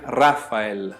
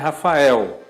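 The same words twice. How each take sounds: First: The stress falls on the first syllable. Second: The stress falls on the last syllable. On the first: "A gente joga para a esquerda um pouco o acento, né? Fica no Ra" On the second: "A gente acaba transformando o L em U"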